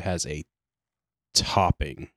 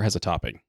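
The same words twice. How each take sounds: First: The word topping is said with heavy emphasis. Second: The word topping is said plainly. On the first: The blend has an overwhelming, horrible topping. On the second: The blend has a light, ordinary topping.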